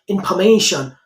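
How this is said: It is said the way native speakers say it. The speaker calls it right. "it's a proper word is information"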